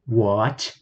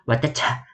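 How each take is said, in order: First: It is said as one syllable with a long a. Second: Every letter is sounded, giving several syllables. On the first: This is the English pronunciation. "Jadi bacanya watch" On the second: This is how an Indonesian reader would read the spelling. "Kalau di bahasa Indonesia bacanya pasti watecah"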